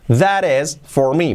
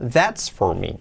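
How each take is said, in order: First: That is is said as two full words. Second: That is is contracted into one syllable.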